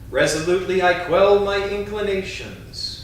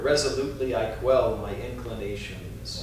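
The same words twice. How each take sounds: First: It is spoken in a strong, loud voice. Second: It is spoken in a softer voice. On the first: "first in a strong voice" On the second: "A little softer"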